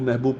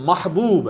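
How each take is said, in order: First: The first vowel is 'i', as in mihbub. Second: The first vowel is 'a', as in mahbub. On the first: The speaker calls it wrong. "मीम पे जेर पढ़ते हैं" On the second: The speaker calls it right. "असल लफ्ज महबूब है, मीम पे जबर है"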